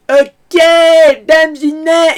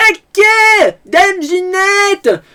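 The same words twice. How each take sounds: First: High, loud farce yell, held back a little; hammy yell, gently done; toned-down Jacquouille. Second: Very high, loud, slow hammy yell; full Jacquouille. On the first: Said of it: "là, je le fais gentiment". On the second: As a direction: bellow it like an overacting peasant. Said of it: "je le fais gentiment". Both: Retold or imitated.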